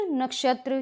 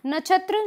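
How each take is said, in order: First: नक्षत्र with a clear "ksh"; correct pronunciation. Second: नक्षत्र said as "nachhatra", higher; the mistaken छ sound in नक्षत्र; wrong pronunciation. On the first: Teacher gives the right नक्षत्र after the wrong one. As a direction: say नक्षत्र with क्ष, not छ. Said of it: "श की जो ध्वनि है उसका ये अनुसरण करता है". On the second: Teacher shows the wrong नक्षत्र, pitched higher. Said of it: "ये छ बोला जाता है". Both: Shown as a demonstration.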